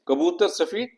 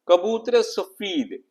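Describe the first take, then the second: First: The words are joined with no linking vowel. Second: An 'e' vowel links the two words. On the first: The speaker calls it wrong. "ना तो वो रिदम है" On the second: The speaker calls it right. "एक रिदम पैदा होता है"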